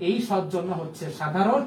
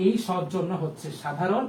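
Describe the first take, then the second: No difference in how they are said.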